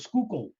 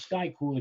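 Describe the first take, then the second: First: The name begins with skoo and ends with kill. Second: The name begins with sky and ends with cool. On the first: The speaker calls it right. "it's the Schuylkill" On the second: The speaker calls it wrong. "it's not the Sky Cool Expressway"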